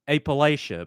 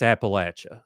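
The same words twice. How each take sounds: First: The third syllable does not sound like 'latch'. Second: The third syllable sounds like 'latch'. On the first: The speaker calls it wrong. "never say Appalachia because it is incorrect" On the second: The speaker calls it right. "you throw an apple at you. That's Appalachia"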